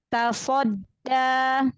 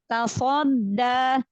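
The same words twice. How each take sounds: First: The sound stays out of the nose. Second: The sound goes through the nose. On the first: The speaker calls it right. "Nggak masuk ke hidung" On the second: The speaker calls it wrong. "jangan tasodda"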